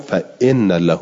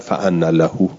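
First: The particle is said with an i vowel: inna. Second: The particle is said with an a vowel: anna.

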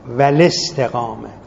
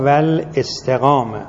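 First: The glottal stop is dropped and the words link. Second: A glottal stop is pronounced before the vowel. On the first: The speaker calls it right. "کسرشو میده به لام... خود حمزه تلفظ نمیشه" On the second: The speaker calls it wrong. "بعضی ها میخونن اکرمنا بالهدا والاستقامه"

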